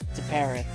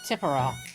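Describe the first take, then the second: First: The name ends in an 'eth' sound. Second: The name ends in an open 'ah' sound. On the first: The speaker calls it right. "I think it's Tippereth" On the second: The speaker calls it wrong. "not Tipperah"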